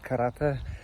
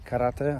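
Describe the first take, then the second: First: It is said with a Polish pronunciation. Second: It is said with a Japanese pronunciation. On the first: "In Polish is karate" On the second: "In Japanese is karate"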